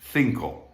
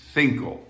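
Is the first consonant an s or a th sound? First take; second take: th; th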